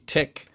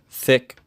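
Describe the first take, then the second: First: The word begins with a T sound. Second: The word begins with a TH sound. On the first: This is the Pidgin form. "would be" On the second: This is the standard English form. "here's an example in standard English"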